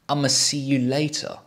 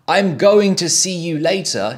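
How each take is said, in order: First: It starts with the short blended form 'I'ma'. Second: It starts with the full form 'I'm going to'.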